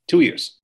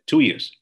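First: "Two years" punched higher and louder, TWO stressed; "Two years" ringing out with pride; triumphant emphasis. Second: Said in the usual way. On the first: Real, not acted. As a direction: hit TWO proudly, a victorious echo. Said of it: "And I did". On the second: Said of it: "I said".

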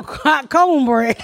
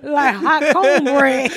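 First: Slow, stretched hot cornbread; lazy savoring drawl. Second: Slow, laughing, stretched words; lazy savoring drawl. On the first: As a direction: linger on each word. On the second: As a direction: stretch hot cornbread out lovingly. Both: Shown as a demonstration.

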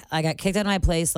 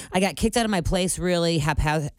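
First: Said in the usual way. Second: Talking around a retainer; slurred speech with retainer in; wearing a retainer. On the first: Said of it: "restart after stumble". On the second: Real, not acted. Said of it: "I can't say it with my retainers in".

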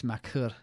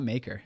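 First: Makur said "ma-KUR", stress on the second syllable; French-style pronunciation. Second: Said in the usual way. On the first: Shown as a demonstration. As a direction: say Makur softly with a French-like "ur" ending. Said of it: "It's, it's Makur". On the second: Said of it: "it's not Maker".

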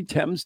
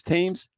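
First: "Thames" said as "temz", short E; British pronunciation. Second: "Thames" said as "taymz", long A; spelling pronunciation. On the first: Showing co-host the two versions, "Thames" with a short E. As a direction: make "Thames" rhyme with "gems". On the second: Showing co-host the two versions, "Thames" with a long A. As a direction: make "Thames" rhyme with "names". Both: Shown as a demonstration. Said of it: "they can't get it right".

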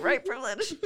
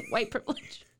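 First: Cough over word. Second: Laughing fake cough over words. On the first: Pretend. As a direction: fake cough through the words.

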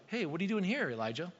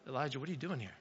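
First: Breezy, offhand "Hey, what are you doing here" with nothing behind it; casual literal question. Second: Softer, lower "Elijah, what are you doing here?" as a probing call; gentle searching God. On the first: Preacher showing what God did not mean, offhand question. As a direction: toss it off like a passing greeting. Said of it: "asking maybe this literal question of". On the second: Preacher voicing God's real question to Elijah, softly probing. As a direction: lean in and ask it softly, meaning it. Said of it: "God's like". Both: Shown as a demonstration.

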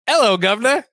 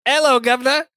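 First: Mock British greeting, lifted up high; a quick stab at a Brit; hammed-up British hello; British accent. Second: High mock British greeting; hammed-up Brit saying hello; over-the-top British hello, lifted high; British accent. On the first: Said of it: "like a, like a Brit". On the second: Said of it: "I don't do accents".

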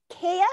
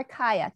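First: "Kaya" with first syllable like "kay"; KAY-uh pronunciation. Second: "Kaya" with first syllable rhyming with "sky"; KAI-uh pronunciation. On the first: Asks which pronunciation is right. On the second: Offers the other pronunciation. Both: Shown as a demonstration.

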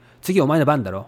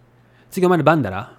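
First: Standard Tokyo Japanese, ending on "だろ"; Tokyo dialect. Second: Quick Mikawa Japanese, "だろ" said as "dara"; Mikawa dialect. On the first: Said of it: "That's Tokyo dialect". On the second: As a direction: say it fast in hometown Mikawa dialect. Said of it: "Mikawa dialect". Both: Shown as a demonstration.

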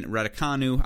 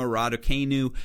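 First: Raducanu with KAH in it, "rad-uh-KAH-noo"; corrected pronunciation. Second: Raducanu with KAY in it, "rad-uh-KAY-noo"; Michigan-style mispronunciation. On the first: Podcaster correcting the player's name, Raducanu as KAH-noo. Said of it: "getting better at pronouncing it". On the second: Podcaster slipping on the player's name, Raducanu as KAY-noo. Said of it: "That was my inner Michigan roots". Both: Real, not acted.

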